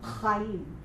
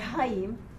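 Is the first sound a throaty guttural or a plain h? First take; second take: guttural; plain h. First: It begins with a rough throaty ch sound. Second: It begins with a plain breathy h sound. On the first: The speaker calls it right. "The correct pronunciation is Cha because this is a Che" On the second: The speaker calls it wrong. "They say Chaim because they can't pronounce it like me"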